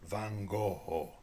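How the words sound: The name is said with a Japanese pronunciation.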